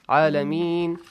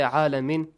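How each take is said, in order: First: The final sound is stretched out longer. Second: The final sound is cut short. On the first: The speaker calls it right. "A little stretch the sound, okay? It will be better" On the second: The speaker calls it wrong. "Don't say Alameen"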